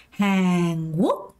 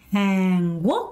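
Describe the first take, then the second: No difference in how they are said.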